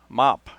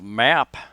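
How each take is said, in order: First: The vowel sounds like the 'o' of hot. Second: The vowel is the open 'a' of cat. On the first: "they will say mop" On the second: "instead of map"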